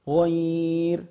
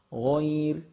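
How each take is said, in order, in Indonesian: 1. Vokalnya ditahan empat ketukan. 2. Vokalnya ditahan dua ketukan.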